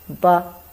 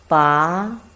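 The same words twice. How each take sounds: First: It is said lightly, with the neutral tone. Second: It is said with the second tone. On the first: "without tongue, we pronounce as ba. It's very light" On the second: "the second tongue"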